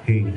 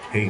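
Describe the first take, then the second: First: The voice sounds fuller with boosted low frequencies. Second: The voice sounds flat with no added effects. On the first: "Ngayon gusto niyo itaas, yung low" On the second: "Ito naka-flat ha. Walang effects yan"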